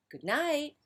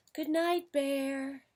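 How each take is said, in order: First: Raised, high-pitched goodnight; a little louder. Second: High, drawn-out mouse call; soft goodnight. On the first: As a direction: repeat the goodnight to get noticed. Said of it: "said Mouse a little louder". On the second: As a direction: sing out a high little goodnight. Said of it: "said Mouse softly". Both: A narrator's reading.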